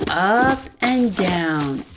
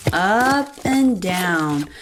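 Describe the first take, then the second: No difference in how they are said.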